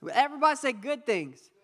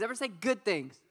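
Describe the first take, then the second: First: Louder, pushing the crowd to repeat "good things"; louder call to the crowd. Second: Said in the usual way. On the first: Shown as a demonstration. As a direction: call it out again so they answer.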